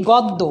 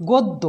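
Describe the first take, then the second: First: গদ্য with open "aw" first vowel; as written. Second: গদ্য with closed "o" first vowel; pronounced with O. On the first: Teacher reading out the spelling, গদ্য with open aw. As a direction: say গদ্য as "gawd-do". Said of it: "লিখেছি গদ্য". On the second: Teacher giving the spoken form, গদ্য with closed o. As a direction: say গদ্য as "god-do". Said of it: "গয়ে ওকার হয়েছে". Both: Shown as a demonstration.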